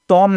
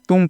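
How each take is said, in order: First: The vowel is pronounced as an o sound. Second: The vowel is pronounced as a u sound. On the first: The speaker calls it wrong. "तोम नहीं पढ़ना है" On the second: The speaker calls it right. "तुम पढ़ना है आपको"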